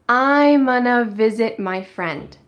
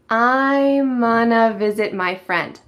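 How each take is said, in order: No difference in how they are said.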